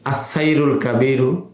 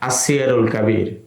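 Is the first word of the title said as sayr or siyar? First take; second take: sayr; siyar. First: The first word is said as sayr. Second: The first word is said as siyar. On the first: The speaker calls it wrong. "কেউ কেউ সিয়ার শব্দটাকে ভুল করে সাইরন পড়েন" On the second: The speaker calls it right. "সঠিক হলো"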